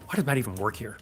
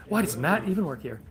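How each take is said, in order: First: Softer, deadpan jab at Matt; muttered teasing aside; mock quiet dig. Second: Mock exasperated question. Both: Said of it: "No, I'm just kidding".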